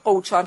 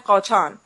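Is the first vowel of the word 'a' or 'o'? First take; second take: o; a. First: The first vowel is an 'o' sound. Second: The first vowel is an 'a' sound. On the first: This is the form used in the speaker's own dialect. "ما که میگیم قوچان" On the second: This is the form many other speakers use. "خیلی میگن قاچان"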